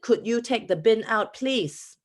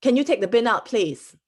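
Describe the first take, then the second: First: Singaporean English, Could you said flat and firm; a lightly voiced Singaporean ask, higher; Singaporean request. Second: Singaporean English, take punched higher and louder; firm Singaporean request, a bit higher and louder; Singaporean accent. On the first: [name] repeats her request to housemates, in a lightly Singaporean accent. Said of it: "in a really rude way". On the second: Retold or imitated. Young [name] asks her housemate to take the bin out, in a Singaporean accent. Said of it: "in my Singaporean accent".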